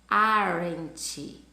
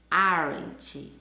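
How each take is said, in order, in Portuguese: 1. As duas palavras são unidas em uma só. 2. As duas palavras são unidas em uma só.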